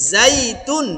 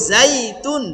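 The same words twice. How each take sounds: The two takes are said the same way.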